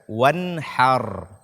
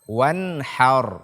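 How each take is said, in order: The two takes are said the same way.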